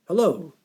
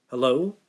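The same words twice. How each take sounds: First: A lightly voiced man, Hello? pitched higher and falling; male caller. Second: A lightly croaky, tired Hello? with a questioning rise. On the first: Scammer answers Ellie on the phone, brisk male caller. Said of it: "a male voice asked". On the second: Ellie answers an unknown caller with a light croak. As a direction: answer Hello? as if just woken, a little croaky. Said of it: "she asked with a croaky voice". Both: A narrator's reading.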